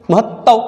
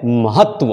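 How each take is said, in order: First: महत्व raised, as mahattav with double t; wrong pronunciation. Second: महत्व as mahat-va with a final va; correct pronunciation. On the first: Teacher shows what is wrong, महत्व as mahattav. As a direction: lift महत्व and double its t, ending -av. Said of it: "ये भी गलत है". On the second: Teacher gives pupils the right word, महत्व as mahat-va. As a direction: release महत्व into a clear tva. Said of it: "और सही शब्द है". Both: Shown as a demonstration.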